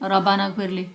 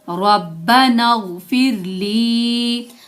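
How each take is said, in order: First: The sounds are unlinked and the end is short. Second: The sounds are linked and the end is long. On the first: The speaker calls it wrong. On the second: The speaker calls it right.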